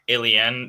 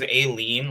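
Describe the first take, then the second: First: It sounds like the word 'alien'. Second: It sounds like 'a' followed by 'lean'. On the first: This is how it was said at the nomination. "they pronounced it alien during the nomination" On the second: The title refers to a lean on a house. "like a lean on a house"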